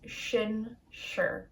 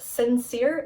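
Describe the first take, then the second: First: It begins with an sh sound. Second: It begins with a plain s sound. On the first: The speaker calls it right. "it's shinshir" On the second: The speaker calls it wrong. "It's not sincere"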